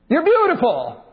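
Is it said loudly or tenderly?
loudly. It is said loudly, without a lowered voice. The speaker calls it wrong. "You never say to your honey"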